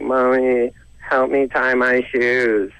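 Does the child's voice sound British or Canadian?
Canadian. It is said like a Canadian kid.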